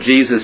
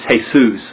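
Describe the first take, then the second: First: The name begins with a J sound. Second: The name begins with an H sound. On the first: "Jesus is the English" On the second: "In Spanish it's Jesus, ... Spanish doesn't have a J sound, so that's hey"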